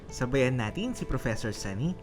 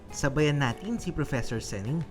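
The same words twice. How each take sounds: Both takes have the same delivery.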